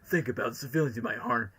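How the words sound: It is said in Shadow's voice.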